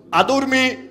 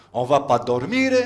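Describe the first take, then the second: First: "adormir" said high with U sounds. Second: Said in the usual way. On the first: Shown as a demonstration. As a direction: sing out "adormir" with U for O. (« adormir », O prononcé U, voix haute) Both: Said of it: "les O sont des U".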